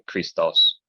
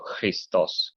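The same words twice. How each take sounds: First: It begins with a hard k sound. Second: It begins with a throaty ch sound. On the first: This is the form more natural in English. "it's a lot more natural for speaking English to just say Christos" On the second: This is the modern Greek pronunciation. "the he in modern Greek pronunciation is kind of like the ch in Loch"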